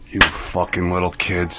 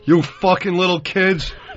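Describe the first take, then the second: First: The line is spoken in a lowered, quiet voice. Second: The line is spoken at full, open volume. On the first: The speaker calls it right. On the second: The speaker calls it wrong.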